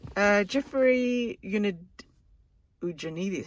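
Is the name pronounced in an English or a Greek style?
English. The name is said with English pronunciation.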